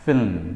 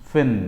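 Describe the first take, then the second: First: The word is stretched into two syllables. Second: The word is said as one syllable. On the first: The speaker calls it wrong. "ဒီအတန်ထွက်က film ဆိုရင်မှားပါတယ်" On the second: The speaker calls it right. "one syllable ဖြစ်ပါတယ်"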